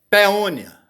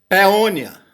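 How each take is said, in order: No difference in how they are said.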